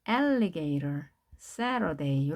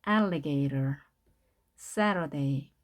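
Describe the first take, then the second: Both takes have the same delivery.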